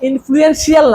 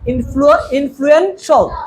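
First: The ending is said as 'shee-al'. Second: The ending is said as 'shal'. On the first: The speaker calls it wrong. "ইনফ্লুয়েন্সিয়াল না" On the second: The speaker calls it right. "সব শিয়ালের ল্যাস কাটে দিবা"

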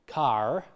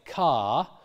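First: The word ends with an audible R sound. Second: The word ends without an R sound.

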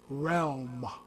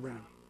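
First: The word is said with an L sound. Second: The word is said without an L sound. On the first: The speaker calls it right. "It's realm. R-E-A-L-M" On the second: The speaker calls it wrong. "It's not REM"

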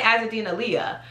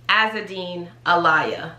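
First: The surname sounds like 'ah-LEE-ah' with no break. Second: The surname sounds like the words 'a liar'. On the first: The speaker calls it wrong. "some people want to say Azadeen Alia" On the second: The speaker calls it right. "like you a liar"

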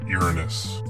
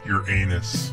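First: It does not sound like 'your anus'. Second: It sounds like the phrase 'your anus'. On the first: "This planet is pronounced Uranus" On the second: "most people pronounce it like your anus"

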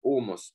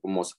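First: The stress is on the first syllable. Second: The stress is on the second syllable. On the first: The word means shoulder. "первое ударение" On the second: The word means raw. "Есть два слова с разным ударением"

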